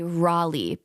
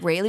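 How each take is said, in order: First: Raleigh is said the North Carolina way. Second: Raleigh is said the Cleveland local way. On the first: "that's the right way to say it" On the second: "everyone here in Cleveland area says Raleigh. Okay, we say Raleigh"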